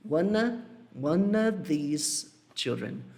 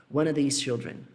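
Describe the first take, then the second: First: Slow, with "of" swallowed to a faint "uh" in "one of"; barely-there of. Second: Said in the usual way. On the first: Shown as a demonstration. Teacher showing students how "of" nearly vanishes, slow reduced of. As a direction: glide through "of" as if it were almost unspoken. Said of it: "Eu falo como se fosse assim". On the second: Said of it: "O of, ele quase não aparece".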